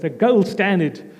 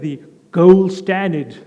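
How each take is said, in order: First: It is said in a plain South African accent. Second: It is said in an attempted American accent.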